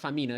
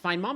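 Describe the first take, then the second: First: The name sounds like 'fa-mee-na'. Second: The name sounds like the words 'find mom'. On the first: The speaker calls it right. "excuse me" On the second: The speaker calls it wrong. "I know people get mad when I mispronounce names"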